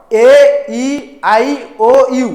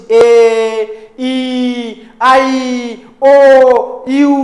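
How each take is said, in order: First: "ଏ ଇ ଆଇ ଓ ୟୁ" named slowly, one by one; naming vowel letters. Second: "ଏ, ଇ, ଆଇ, ଓ, ୟୁ" each held long, with pauses between; drawn-out vowel sounds. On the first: Teacher naming the five vowels, "ଏ ଇ ଆଇ ଓ ୟୁ" slow and separate. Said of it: "ଏ ପାଞ୍ଚଟା ଆଲଫାବେଟ୍ସ ହେଉଛି ତମର vowel". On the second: Teacher demonstrating vowel sounds, "ଏ, ଇ, ଆଇ, ଓ, ୟୁ" held long, spaced apart. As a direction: stretch each of "ଏ, ଇ, ଆଇ, ଓ, ୟୁ" into a sustained sound. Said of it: "ତୁମର sound ଅଛି". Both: Shown as a demonstration.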